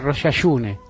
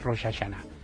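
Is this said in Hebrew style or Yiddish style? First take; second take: Yiddish; Hebrew. First: It is said with the Yiddish-style pronunciation. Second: It is said with the standard Hebrew pronunciation. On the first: This is how the grandparents said it. "Pronunciaban Rosh Hashune" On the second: This is the form the grandparents did not use. "no decían Rosh Hashanah"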